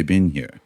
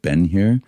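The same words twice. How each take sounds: First: "Been here" with "been" said like bean, British way; British accent. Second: American accent. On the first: Guest showing how he says it in London: British "Been here". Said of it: "I would say". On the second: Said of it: "conscious of trying to sound American". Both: Shown as a demonstration.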